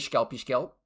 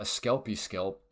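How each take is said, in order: First: It is said in a silly, playful way. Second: It is said in a sober, serious way. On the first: The speaker calls it right. "you have to say it properly" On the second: The speaker calls it wrong. "If you try to be all adult like"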